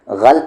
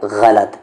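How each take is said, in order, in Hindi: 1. l और t बिना किसी स्वर के जुड़ते हैं। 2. l और t के बीच एक स्वर सुनाई देता है। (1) "गलत बहुत सारे लोग कहते हैं, तो ये गलत है" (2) "तो इसका सही तलफ़ुज़ क्या है?"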